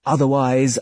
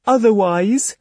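First: Said in the usual way. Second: Pleading otherwise. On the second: Acted. Her pleading speech.

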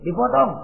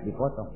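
First: Higher, firm answer; emphatic confirmation. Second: Low, very soft repeat; puzzled echo. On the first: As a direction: confirm it with a high punch. Devil confirms the news emphatically. (menegaskan dengan nada tinggi) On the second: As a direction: echo it quietly, unsure. Ismail echoes the news, puzzled. (mengulang lirih, bingung) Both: Acted.

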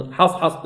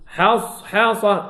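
First: Short حصحص with clipped s; sad without flow. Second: Slow حصحصة with stretched s; soft flowing sad. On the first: Teacher showing what not to do, short sad. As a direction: cut off the sad in حصحص, as a mistake. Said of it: "لا". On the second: Teacher modelling the soft letter for students, slow sad. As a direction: hold the hiss of sad in حصحصة. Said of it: "رخوي". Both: Shown as a demonstration.

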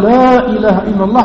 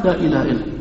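First: Said in the usual way. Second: Much softer and lower echo; hushed low answer; quiet reply. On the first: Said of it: "وإذا قال". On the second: Shown as a demonstration. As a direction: murmur it back low. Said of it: "قلنا".

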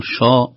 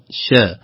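First: "شا" with a heavy, dark sh syllable; wrong heavy shīn. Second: "شا" with a thin, light sh and fronted vowel; light shīn. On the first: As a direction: say "شا" thick and emphatic, vowel backed. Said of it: "لا نقول شا". («شا» بتفخيم الشين) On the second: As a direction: say "شا" light, close to "sheh". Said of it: "رقيق". («شا» بترقيق الشين) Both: Shown as a demonstration.

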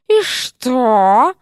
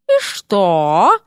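First: Sharp, biting snake retort; venomous. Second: Louder biting retort; venomous. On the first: Серпентина answers the flustered dean, venomous. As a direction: spit the question like venom. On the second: Серпентина cuts off the dean, venomous. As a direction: lash back with pure venom. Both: A narrator's reading. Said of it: "звучало так язвительно".

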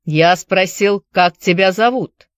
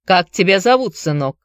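First: Put-on firm repeated question, Irish accent; stern Irish accent. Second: Put-on Irish accent. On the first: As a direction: press the question in an Irish brogue. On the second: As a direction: ask it in an Irish brogue. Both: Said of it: "с сильным ирландским акцентом".

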